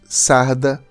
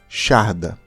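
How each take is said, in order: First: The word starts with an 's' sound. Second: The word starts with an 'sh' sound. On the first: This is how Portuguese speakers say it. "Nós dizemos sarda" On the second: This is how Galicians say it. "os galegos dizem charda"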